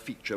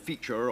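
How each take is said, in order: First: The final R sound is dropped. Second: The final R sound is clearly pronounced. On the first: This is the later English way. "we just say creature, feature" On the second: This is the older way of speaking. "instead of saying feature"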